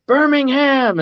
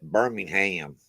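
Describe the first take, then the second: First: Birmingham said high and clipped, ham swallowed; English pronunciation. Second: Birmingham with the ham said full; Alabama pronunciation. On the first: Retold or imitated. A band greeting an English crowd, high Birmingham. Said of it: "they do the thing to the crowd and they go". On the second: Shown as a demonstration. Explaining how Alabama says Birmingham, ham ending stressed. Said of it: "They say it Birmingham".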